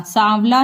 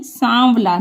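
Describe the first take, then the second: First: "सांवला" as oral saavla; the mistaken "सांवला", no nasal aa; without nasal. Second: "सांवला" as sãavla, through the nose; nasalised vowel. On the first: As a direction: say "सांवला" with a plain open aa. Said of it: "सांवला नहीं". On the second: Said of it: "नाक से हम देखिए". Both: Shown as a demonstration.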